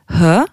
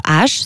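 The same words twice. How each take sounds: First: H breathed out as "heu"; H as an audible "huh"; Albanian letter sound. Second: Said in the usual way. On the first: Shown as a demonstration. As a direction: say H as aspirated h plus eu, not "ache". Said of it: "ça se prononce H". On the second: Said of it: "ça se prononce".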